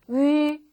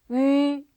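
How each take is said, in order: Both takes have the same delivery.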